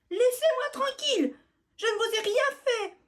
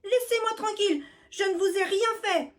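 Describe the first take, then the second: First: Very high, loud desperate plea; pleading. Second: High loud plea; desperate cry. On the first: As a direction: beg them with all she has. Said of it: "supplie Biscotte". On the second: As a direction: cry out to be left alone. Mouse pleading loudly. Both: Acted.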